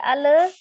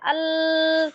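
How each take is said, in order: First: The l is released with a bouncing vowel. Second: The l is held without any release. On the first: "tidak dipantulkan" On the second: "tidak ditahan"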